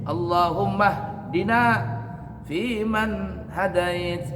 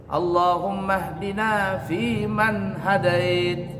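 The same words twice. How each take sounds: No difference in how they are said.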